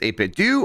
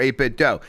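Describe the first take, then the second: First: The last syllable ends in an oo vowel. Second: The last syllable ends in an oh vowel. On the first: It is the makers' intended pronunciation. "It's pronounced eight-bit do, I think, according to them" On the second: It echoes the ending of Nintendo. "it's supposed to sound like Nintendo to me"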